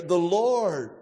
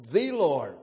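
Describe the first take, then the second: First: "Lord" drawn out, "The" said short as thuh; stress on LORD. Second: "the" said as a long "thee" before "Lord"; stress on THE. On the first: Preacher dwelling on each word, weight on "Lord". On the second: Preacher singling out one God, emphatic "the" as thee. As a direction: make "the" a weighty thee, meaning the only one. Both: Shown as a demonstration. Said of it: "we could major on every word here".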